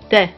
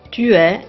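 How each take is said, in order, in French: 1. Le u de tu est supprimé. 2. Le u de tu est entièrement prononcé.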